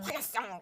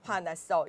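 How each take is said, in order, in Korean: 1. 생동감 있고 감정이 살아 있게 말했어요. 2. 평평하고 평범한 낭독 톤으로 말했어요. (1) "화났어 이렇게 얘기해 보는 거" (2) "그냥 읽어내는 게 아니라"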